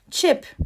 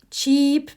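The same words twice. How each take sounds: First: Chip said with a short, clipped i, /t͡ʃip/; short i, pitched up; short i vowel. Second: Cheap with a long ee, /t͡ʃiːp/; long ee, set against chip; long ee vowel. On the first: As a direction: say Chip short, not like cheap. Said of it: "Bu chip diye okunuyor". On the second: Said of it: "başka bak yukarıdaki". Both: Shown as a demonstration.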